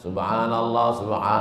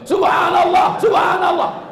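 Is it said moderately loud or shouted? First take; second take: moderate; shouted. First: It is said at a moderate, middle loudness. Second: It is shouted very loudly, like raging.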